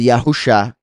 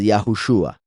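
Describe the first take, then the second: First: The name ends with a plain 'sha' sound. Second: The name ends with a 'shua' sound. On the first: The speaker calls it wrong. "la pronunciación no es Yahusha" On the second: The speaker calls it right. "es Yahushua"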